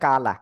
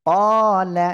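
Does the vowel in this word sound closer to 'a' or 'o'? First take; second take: a; o. First: The vowel sounds like a light, open 'a'. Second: The vowel sounds like a heavy, rounded 'o'. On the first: The speaker calls it wrong. "অনেকে বলে কালা, কালা হবে না" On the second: The speaker calls it right. "এটা হবে কলা"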